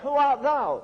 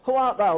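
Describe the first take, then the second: First: It is read with marked expression. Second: It is read flatly, without expression. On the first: The speaker calls it right. "But suppose you can read it this way" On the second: The speaker calls it wrong. "If you read it straight off, it means nothing"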